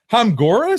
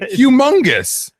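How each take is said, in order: First: The word is said with an altered middle part. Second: The word is said with the usual pronunciation. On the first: The speaker calls it wrong. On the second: The speaker calls it right.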